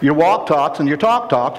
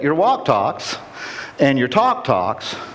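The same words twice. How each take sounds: First: The phrase is spoken at a quicker pace. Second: The phrase is spoken at a slower pace.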